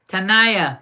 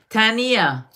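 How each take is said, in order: First: Tanaya said tuh-NYE-uh, stress on the middle; trying the name. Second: Tania said TAH-nee-uh, three syllables; trying the name. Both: Shown as a demonstration. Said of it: "Did I say it right?".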